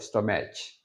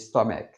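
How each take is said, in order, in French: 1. La fin se prononce avec un autre son doux, proche de « ch ». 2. Le mot se termine par un son k dur. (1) "ou stomach" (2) "On dit stomach"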